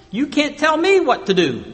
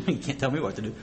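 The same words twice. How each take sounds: First: Playful mock rebellion; mock defiance. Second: Soft, quick, laughing at the joke; amused laughing repeat. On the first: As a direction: talk back like a stubborn kid. Body defying head, mock voice. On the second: Real, not acted. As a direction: chuckle it out quietly. Repeats line through laughter.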